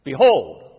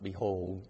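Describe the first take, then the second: First: The word is said forcefully, like an exclamation. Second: The word is said flatly, without emphasis. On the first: It is a call to pay attention. The speaker calls it right. "It's behold. Attention" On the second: It is just an ordinary word. The speaker calls it wrong. "It's not behold"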